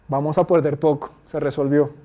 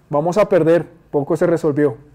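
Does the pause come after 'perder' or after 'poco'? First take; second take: after poco; after perder. First: The pause falls after 'poco'. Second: The pause falls after 'perder'. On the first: The loss will be small and it was solved. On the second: A loss is coming and little was solved.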